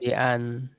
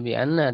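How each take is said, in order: First: The second word ends with a short 'an'. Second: The second word ends with a long 'anna'. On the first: The speaker calls it right. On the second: The speaker calls it wrong. "berarti bukan dibaca bi anna"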